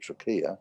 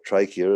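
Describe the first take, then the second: First: It is said with a non-American pronunciation. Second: It is said with an American pronunciation.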